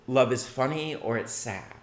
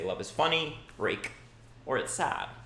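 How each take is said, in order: First: It flows straight through without a pause. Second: There is a clear pause after "funny."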